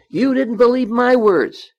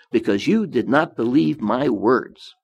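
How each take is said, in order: First: Higher, louder, with the weight on "my"; stress on my. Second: Said in the usual way. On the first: Shown as a demonstration. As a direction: hit "my" hard, not God's. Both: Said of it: "He didn't say God's words".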